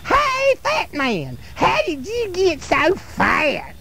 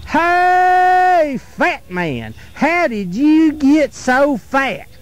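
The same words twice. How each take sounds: First: Put-on much higher, softer, slow little-girl voice; slow squeaky high mocking call; girl's teasing taunt. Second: Sing-song teasing call, slow, jumping high on hey; slow mocking schoolboy jeer; boy's teasing taunt. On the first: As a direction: tease him in a tiny sweet girl voice. Little girl taunts the fat man. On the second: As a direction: taunt him like a cheeky little boy. Boy taunts the troll-like fat man.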